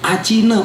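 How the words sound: The t sounds like a ch sound. "orang India, orang Bangladesh, orang Myanmar"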